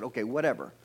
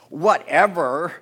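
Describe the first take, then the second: First: Said in the usual way. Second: Loud, drawn-out "whatever", rising at the end; with attitude. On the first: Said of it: "She just said". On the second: Shown as a demonstration. Preacher mimicking Sarah's reply, exaggerated attitude. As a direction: stretch it out loud and sassy. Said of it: "Say it with attitude".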